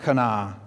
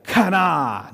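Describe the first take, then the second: First: Kana said lightly, no throaty K; an ordinary English kana; soft plain kana. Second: Kana with a hard, guttural K, louder and higher; throaty kana. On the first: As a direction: kana said softly and flat. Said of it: "not like kana". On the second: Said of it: "You have to say it like that". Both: Shown as a demonstration.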